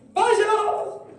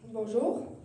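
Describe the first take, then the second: First: It is said too loudly. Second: It is said too softly.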